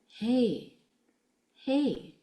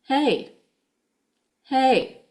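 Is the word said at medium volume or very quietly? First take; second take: very quietly; medium. First: It is said very quietly with gentle breath. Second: It is said at medium volume. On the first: "let's say it really quietly" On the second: "Won't be using the same forceful exhalation or breath flow"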